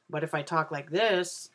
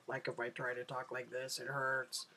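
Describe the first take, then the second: First: Said in the usual way. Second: Strained low talk, lower and much softer; forced low voice. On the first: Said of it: "it's just me talking". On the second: Shown as a demonstration. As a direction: push your voice down uncomfortably low and quiet. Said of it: "if I tried to talk low".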